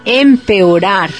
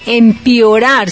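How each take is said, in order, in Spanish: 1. Un sonido e sigue a la primera sílaba. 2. Un sonido i sigue a la primera sílaba. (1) "sino que se dice empeorar" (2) "No se dice empeorar"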